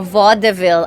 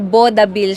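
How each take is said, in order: First: It is said with the American pronunciation. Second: It is said with the Filipino pronunciation. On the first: "But in America, of course, it's a vaudeville" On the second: "pero vaudeville siya nga sa Pilipinas"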